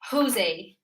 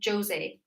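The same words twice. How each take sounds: First: The name begins with a breathy H sound. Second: The name begins with an English J sound. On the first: "You would say H for this J" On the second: "rather than"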